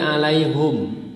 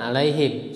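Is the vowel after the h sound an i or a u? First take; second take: u; i. First: The vowel after h is u. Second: The vowel after h is i. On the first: This is the reading of a particular group of reciters. "mendomahkan ha, jadi alaihum" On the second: This is the reading of the other reciters. "dengan mengkasrohkan alaihim"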